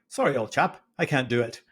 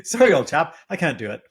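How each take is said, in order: First: Put-on half-hearted posh British accent; lightly faked British accent; terrible British accent. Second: Louder, higher mock British accent; hammed-up upper-class British; British accent, retried. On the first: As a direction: attempt an upper-class Brit, badly. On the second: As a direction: lay on the posh British harder. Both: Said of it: "That's a terrible British accent".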